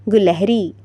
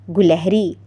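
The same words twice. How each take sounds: The two takes are said the same way.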